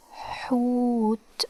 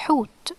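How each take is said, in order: First: "hoot" very slow, with long h and oo; drawn-out demonstration. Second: Said in the usual way. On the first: Shown as a demonstration. Teacher sounds out the new Arabic word "hoot", drawn out slowly. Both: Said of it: "so it's pronounced like hu".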